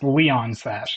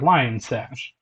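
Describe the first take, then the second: First: The first word sounds like 'Leon'. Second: The first word sounds like 'lion'. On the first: The speaker calls it wrong. "I've heard some people pronounce this as Leon Sash, and I'm like, eh" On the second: The speaker calls it right. "this is a lion, bro"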